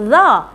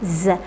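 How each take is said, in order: First: Za said hard and loud with no hiss; a blunt za, the wrong way. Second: A long whistling Z with air through the teeth; hissing z. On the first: Teacher demonstrating the incorrect z, louder. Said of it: "Tak betul". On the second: Teacher modelling the correct whistling z. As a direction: let the Z hiss like a whistle. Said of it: "suara safir". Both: Shown as a demonstration.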